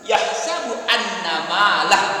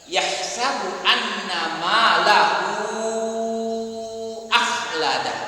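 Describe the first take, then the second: First: The word stops short with no final vowel. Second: The final vowel is held long and runs on. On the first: The recitation stops at this word. "kalau wakaf berhenti disukunkan" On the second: The recitation continues into the next word. "apabila wasal dilanjutkan"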